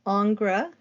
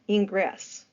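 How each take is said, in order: First: The name begins with ing and has no ess. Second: The name ends with a clear ess sound. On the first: The speaker calls it right. "sometimes it's pronounced Ingres" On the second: The speaker calls it wrong. "it's not Ingress. That's not right"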